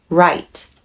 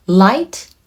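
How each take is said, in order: First: 'right' with an English R, lower and settled; second word of an L versus R pair, 'right' begun with R; R sound. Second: 'Light' with a clear L, tune rising; first word of an L versus R pair, 'Light' begun with L; L sound. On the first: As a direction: say 'right' starting on R, tongue touching nothing. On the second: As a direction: say 'Light' starting on a crisp L, lifting at the end. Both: Shown as a demonstration. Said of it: "LとRから始まっていますので".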